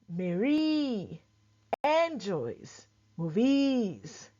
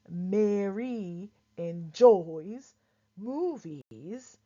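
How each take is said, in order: First: The stress falls on unusual syllables. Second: The stress falls on the usual syllables. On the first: The speaker calls it wrong. "stress on all the wrong syllables" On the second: The speaker calls it right. "instead of"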